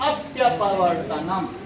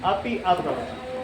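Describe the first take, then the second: First: The two words are joined into one word. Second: The two words are said separately, unlinked.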